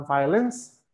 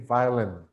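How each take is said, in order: First: "violence" with a hissed final S; wrong "violence". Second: "violin" ending on N, no S; correct "violin". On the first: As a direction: misread violin as "violence", rising. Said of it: "Jangan ada S di belakangnya". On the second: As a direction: drop the S from "violin". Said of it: "kurangin S-nya jadi violin". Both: Shown as a demonstration.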